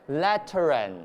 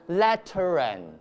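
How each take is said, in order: First: An R sound links the two words. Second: The same.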